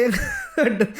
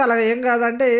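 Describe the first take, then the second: First: Laughing. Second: Said in the usual way. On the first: Retold or imitated. Gangavva's reply retold with laughter. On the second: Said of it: "పేరు చెప్పమంటే చెప్పొచ్చు".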